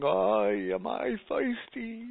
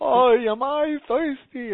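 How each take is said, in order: First: Put-on New York accent. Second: Much higher, louder, slow New York wail of thirst; hammed-up New York kvetch, stretched out; New York accent. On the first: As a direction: moan it like a thirsty New Yorker in the desert. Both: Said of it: "as a New York accent".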